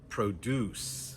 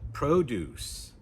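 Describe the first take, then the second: First: The stress is on the second syllable. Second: The stress is on the first syllable. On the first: It is used as a verb. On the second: It is used as a noun or adjective.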